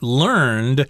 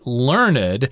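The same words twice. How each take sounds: First: The word is said as one syllable. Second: The word is said as two syllables. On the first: It describes something acquired by learning. "in this particular case is pronounced learned" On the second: It describes a person who knows a lot. "you may also have heard people pronounce this as learned"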